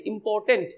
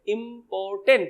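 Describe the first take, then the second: First: Said in the usual way. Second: important in three separate parts, इं-पॉर-टेंट; split into syllables. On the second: Shown as a demonstration. Teacher showing students the three breaks, separated syllables. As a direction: break important clearly after each syllable. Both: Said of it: "तीन बार टूटेगा".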